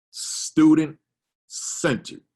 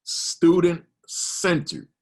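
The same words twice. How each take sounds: First: Student-centered drawn out very slowly, higher and louder; emphasis on student-centered. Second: Student-centered stretched very slowly, higher and louder; emphasis on student-centered. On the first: Principal reading his definition to teachers, stressing student-centered. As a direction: lean hard on student-centered, stretching every syllable. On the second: Principal repeating his key phrase to the audience, heavily stressed. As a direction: hammer student-centered again, slow and emphatic. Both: Shown as a demonstration. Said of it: "I gotta put emphasis there".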